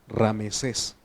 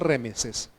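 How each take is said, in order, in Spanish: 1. La primera vocal es un sonido 'a'. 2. La primera vocal es un sonido 'e'. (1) "La primera jornada es Ramesés" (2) "no Remesés"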